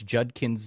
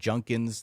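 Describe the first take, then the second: First: The middle consonant is a d sound. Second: The middle consonant is an n sound. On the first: The speaker calls it right. "it's Judkins" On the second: The speaker calls it wrong. "not Junkins"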